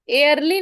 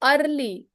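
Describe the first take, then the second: First: The first vowel sounds like 'air'. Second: The first vowel sounds like 'er'. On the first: The speaker calls it wrong. "एयरली नहीं होगा" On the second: The speaker calls it right.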